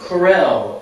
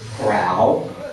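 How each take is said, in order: First: It sounds like the brand name Corel. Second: It sounds like the word corral. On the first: Someone else once said it this way. "I heard somebody actually, this is true, Corel" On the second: This is a local Texas way to say it. "we're in Texas after all, so Corral"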